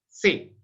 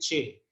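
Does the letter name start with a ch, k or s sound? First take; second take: s; ch. First: The name starts with an s sound. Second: The name starts with a ch sound. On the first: This is the Hispanicized pronunciation. "una pronunciación hispanizante, lo puede decir se" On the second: This is the Italianate medieval pronunciation. "como una pronunciación medieval italianizante, la dice che"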